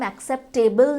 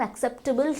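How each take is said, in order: First: The ending is said like 'table'. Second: The ending is said like 'tibble'. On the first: The speaker calls it wrong. "इसका pronunciation हम एक्सेप्टेबल नहीं बोलते हैं" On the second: The speaker calls it right. "हम एक्सेप्टेबल ही बोलते हैं"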